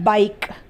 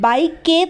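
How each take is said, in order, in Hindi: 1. यह शब्द k की ध्वनि पर समाप्त होता है। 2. अंतिम k के बाद एक स्वर उच्चारित होता है। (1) "हम क्या बोलते हैं" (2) "हम बाइक के तो नहीं बोलते ना"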